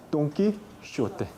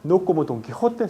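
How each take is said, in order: First: "Don Quijote" with sh sound, slow and soft; old pronunciation. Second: Said in the usual way. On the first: Shown as a demonstration. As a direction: say Quijote as kishote, slowly. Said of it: "¿cómo se pronuncia?". ("Don Quijote" pronunciado kishote, lento) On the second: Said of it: "sino como".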